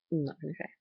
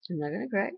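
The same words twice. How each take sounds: First: Said in the usual way. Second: Fighting back real tears, a little louder and higher; holding back tears. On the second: Real, not acted. Grandma steadying herself after Eli's prayer, choking up. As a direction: voice catching as she tells herself not to cry.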